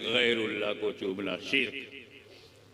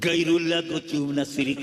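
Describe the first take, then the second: First: The phrase is pronounced with careful Urdu sounds. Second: The phrase is pronounced with unpolished, mangled sounds. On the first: The speaker is educated and knows Urdu. The speaker calls it right. "Pronunciation अच्छा है, शुद्ध उच्चारण है" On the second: The speaker does not know Urdu properly. The speaker calls it wrong. "Urdu भी नहीं आती"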